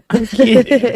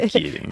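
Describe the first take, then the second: First: Laughing through the words. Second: Said in the usual way. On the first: Real, not acted. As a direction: giggle it out. Laughing off a joke.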